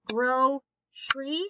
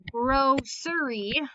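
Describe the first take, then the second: First: The word is said with two syllables. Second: The word is said with three syllables. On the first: "normally how we say it is grocery" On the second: "if I say it grocery, ... this one in the middle would be closed"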